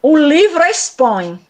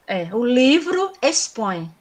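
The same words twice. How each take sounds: First: O livro expõe slowed, livro stressed, then a clear stop; pause after the third syllable. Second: Said in the usual way. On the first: Shown as a demonstration. Teacher showing where the verse pauses in O livro expõe. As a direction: hit livro and halt after expõe to mark the caesura. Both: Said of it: "Ele deu a parada aqui".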